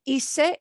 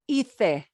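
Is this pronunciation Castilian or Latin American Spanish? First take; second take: Latin American; Castilian. First: It is said with a Latin American s sound. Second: It is said with a Castilian Spanish pronunciation. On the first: "this will not sound like hice" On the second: "in Castilian Spanish, ... it'll be hice"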